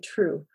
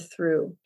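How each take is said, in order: First: The word begins with a t sound. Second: The word begins with a th sound.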